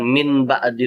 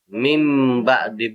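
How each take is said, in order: First: The first word ends with an n sound. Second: The first word ends with an m sound. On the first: The speaker calls it wrong. "bukan min ba'di lagi" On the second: The speaker calls it right. "jadi mim ba'di"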